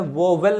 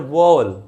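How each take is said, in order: First: A distinct 'w' sound starts the second syllable. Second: The 'w' merges into the vowel, not heard separately. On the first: The speaker calls it wrong. "यहाँ पर इसे वोवेल नहीं पढ़ते" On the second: The speaker calls it right. "W यहाँ से गायब हो गया है"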